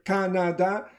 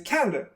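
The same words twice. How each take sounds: First: Every vowel is pronounced fully and clearly. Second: The unstressed vowels are reduced to schwa. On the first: The speaker calls it wrong. "nobody says that" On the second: The speaker calls it right. "Say Canada"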